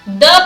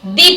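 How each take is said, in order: First: The word ends in a short 'uh' vowel. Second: The word ends in a long 'ee' vowel. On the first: "कभी कभी हम जो है इसको द पढ़ते हैं" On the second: "कभी कभी दी पढ़ते हैं"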